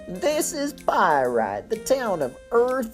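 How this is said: It is read in a put-on elderly voice.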